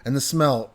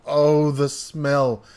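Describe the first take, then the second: First: Said in the usual way. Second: Slow, dreamy relish on oh, the smell; savouring. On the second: A narrator's reading. Narrator reliving the sausage biscuit smell, slow and dreamy. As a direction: linger over it like you can still smell it.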